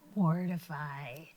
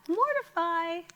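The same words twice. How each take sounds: First: It is said in a scary voice. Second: It is said in a high voice.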